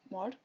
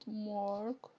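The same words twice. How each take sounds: First: The vowel is clipped short. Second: The vowel is held longer. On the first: The speaker calls it right. "just Mark, shorter" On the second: The speaker calls it wrong. "not Mark"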